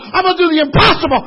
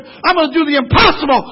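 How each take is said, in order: First: Faster repeat. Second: Preached vow. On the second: First of repeated vow. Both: Acted.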